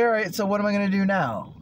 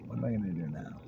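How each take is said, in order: First: Loud, high burst of self-talk; lively self-talk. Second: Soft, musing question to yourself; quiet self-talk. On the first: Man asking himself what comes next, loud and lively. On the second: Man wondering to himself what comes next, quietly. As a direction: drop to a soft, settled musing. Same question repeated, settled. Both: Retold or imitated.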